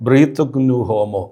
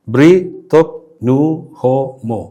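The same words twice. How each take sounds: First: Said in the usual way. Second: "ബ്രീ തൊക് നു ഹോ മോ" split with a pause after every syllable. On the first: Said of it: "അഞ്ച് സ്വരാക്ഷരങ്ങൾ". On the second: Shown as a demonstration. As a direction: tap out "ബ്രീ തൊക് നു ഹോ മോ" one syllable at a time. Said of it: "അഞ്ച് സ്വരാക്ഷരങ്ങൾ മാത്രം". ("ബ്രീ തൊക് നു ഹോ മോ" ഓരോ അക്ഷരവും വേർതിരിച്ച്)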